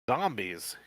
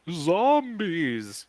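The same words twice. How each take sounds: First: It is said in a plain reading voice. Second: It is said in a spooky, eerie voice. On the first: The speaker calls it wrong. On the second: The speaker calls it right. "you reply in a spooky voice"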